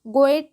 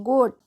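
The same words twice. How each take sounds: First: गोएट in two syllables, "go-et"; wrong reading गोएट, the "a" voiced separately; mistaken spelling pronunciation. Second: गोट as one syllable with a long "o"; teacher's firm model of गोट in one beat; corrected pronunciation. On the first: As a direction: sound both vowels in गोएट. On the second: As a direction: say गोट, "goat", with no second vowel. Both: Shown as a demonstration. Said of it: "गोएट नहीं, गोट".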